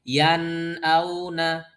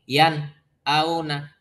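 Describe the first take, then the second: First: The two words flow without a break. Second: There is a break between the two words.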